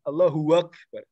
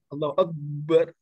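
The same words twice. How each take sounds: First: A w sound is inserted before akbar. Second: The b sound in akbar is doubled. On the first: "Ada waw" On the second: "Jadi double"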